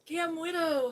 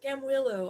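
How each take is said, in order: First: "Gam Widow" called out loud, with "Widow" said like the word widow, with a d; wrong name first. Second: "Gam Willow" called out loud, with an l in "Willow" where the slip had a d; corrected name. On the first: Loudly greeting a viewer and slipping into "Gam Widow". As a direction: shout "Gam Widow" by mistake, with a d in "Widow". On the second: Loudly correcting the viewer's name to "Gam Willow". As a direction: fix it to "Gam Willow", leaning on the l in "Willow". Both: Shown as a demonstration. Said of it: "I always have to say Willow".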